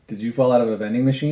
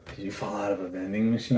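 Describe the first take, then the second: First: It sounds confident, light and playful. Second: It sounds heavy, intense and unsettling. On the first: The flirt is harmless and gets a laugh. The speaker calls it right. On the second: The flirt makes the other person feel unsafe. The speaker calls it wrong.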